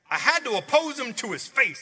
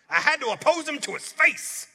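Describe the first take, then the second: First: It is read plainly, without swagger. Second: It is read with a cocky, swaggering attitude.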